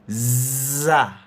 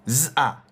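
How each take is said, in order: First: The two sounds glide together without a break. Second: The two sounds are split apart, said quickly. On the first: The speaker calls it right. "You don't hear a pause. You don't hear a break" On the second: The speaker calls it wrong. "It's still segmented"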